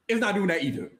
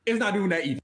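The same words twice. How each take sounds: The two takes are said the same way.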